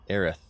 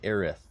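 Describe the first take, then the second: First: The name ends with a lisped th sound. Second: The name ends with a lisped th sound.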